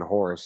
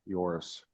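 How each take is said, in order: First: The name begins with an H sound. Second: The name begins with a Y sound. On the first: The speaker calls it wrong. "I was saying Horace" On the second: The speaker calls it right. "the J sounds like a Y then"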